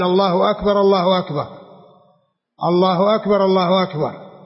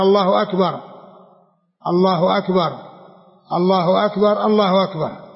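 First: The phrases are joined two by two. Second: Each phrase is said separately with pauses. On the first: "ينطق بها ويتابها اثنتين مع بعض" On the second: "يتابعها مفردة"

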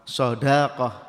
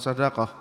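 First: The vowel after the d is long. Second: The vowel after the d is short. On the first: The speaker calls it right. "dalnya panjang" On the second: The speaker calls it wrong. "bukan sodakoh"

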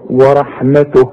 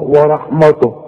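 First: The w and t sound light and thin. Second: The w and t sound heavy and thick. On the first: The speaker calls it right. "رقق لي التاء ورقق لي الواو" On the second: The speaker calls it wrong. "والته برضه تطلع معاك مش مظبوطه"

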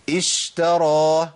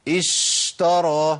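First: The sh sound is held too long. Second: The sh sound is held too long.

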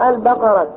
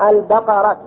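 Both takes have the same delivery.

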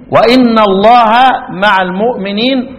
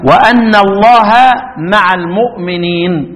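First: The hamza is pronounced with an 'i' vowel. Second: The hamza is pronounced with an 'a' vowel. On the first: The clause starts a new, independent statement. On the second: The clause continues the earlier statement 'I am with you'.

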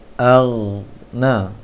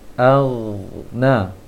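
Both takes have the same delivery.

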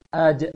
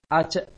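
First: The final consonant is a voiced, bounced j. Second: The final consonant is a voiceless ch sound. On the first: The speaker calls it right. "tapi Aje" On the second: The speaker calls it wrong. "Jangan dibaca seperti C nantinya"

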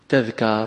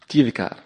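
First: The first vowel is a. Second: The first vowel is i. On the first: The speaker calls it right. "إنما تجيء بفتح التاء" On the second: The speaker calls it wrong. "ولا تقول تذكار كما يقوله أكثر القائلين"

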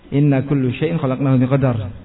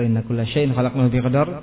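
First: The word after inna ends in a u vowel. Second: The word after inna ends in an a vowel. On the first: Some things were not created by God. The speaker calls it wrong. "Kalau dengan rafa" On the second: Everything was created by God with fate. The speaker calls it right. "Kalau inna kulla syai'in"

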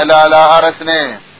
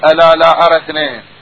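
Both takes have the same delivery.

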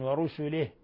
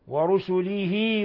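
First: The final h is silent, with no vowel after it. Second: The final h carries a lengthened i vowel. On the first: The reciter pauses on this word. "إذا وقفنا عليها نقف بالسكون" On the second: The word runs on into the next word. "وإذا وصلناها نشبع الكسرة فتصير صلة صغرى"

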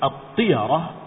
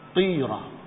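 First: The y sound is followed by an a vowel. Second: The y sound has no vowel after it. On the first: "difathahkan ya-nya" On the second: "Bagaimana kalau disukunkan bacanya?"

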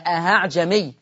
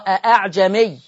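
First: The second hamza is pronounced as an h sound. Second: The second hamza is eased toward a long a. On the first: The speaker calls it wrong. "ما اسمعش حد بيقول ... أهعجمي" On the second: The speaker calls it right. "لما أجي أسهلها في حفص عن عاصم تتردد بين الهمزة والألف، سمعين صوتي؟"

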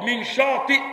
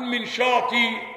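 First: The last word ends with a glottal stop. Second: The last word ends with a long vowel.

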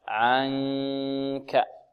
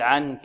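First: The n is hidden as a nasal hum. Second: The n is made with the tongue tip. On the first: The speaker calls it right. "بل ننتقل من مخرج العين الذي هو وسط الحلق إلى مخرج الكاف مع من الخيشوم" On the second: The speaker calls it wrong. "لا نقول عنك عن. نأتي إلى طرف اللسان ونلصقه في الحنك الأعلى. لا خطأ"

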